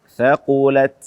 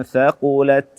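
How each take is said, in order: Both takes have the same delivery.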